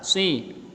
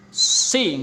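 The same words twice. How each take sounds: First: The syllable is articulated in a normal, relaxed way. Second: The syllable is articulated with forced, exaggerated effort. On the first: The speaker calls it right. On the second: The speaker calls it wrong. "jangan dipaksain. Si enggak gitu"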